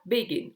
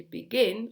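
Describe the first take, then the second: First: "begin" wrongly stressed on its first syllable. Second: "begin" with the weight on its second syllable; stress on second syllable. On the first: English teacher showing what not to say, "begin" stressed on its first syllable. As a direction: hit the start of "begin", let the end drop. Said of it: "on dit pas begin". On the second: English teacher correcting the wrong version, "begin" stressed on its second syllable. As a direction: punch the end of "begin". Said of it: "on insiste sur le, sur la deuxième syllabe". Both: Shown as a demonstration.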